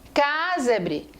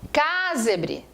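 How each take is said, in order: Both takes have the same delivery.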